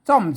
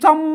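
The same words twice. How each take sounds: First: It is said with the ordinary tone. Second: It is said with the special tone. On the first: "เสียงโทรปกติ" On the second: "ใส่จุดเข้าไปน่ะซ่อม"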